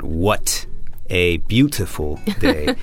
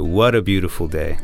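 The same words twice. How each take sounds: First: The T sounds are clear and crisp. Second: The T sounds are flapped like a soft D. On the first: This is not how Americans say it. The speaker calls it wrong. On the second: This is how Americans say it. The speaker calls it right. "But in America, we'd say"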